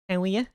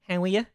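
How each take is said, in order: No difference in how they are said.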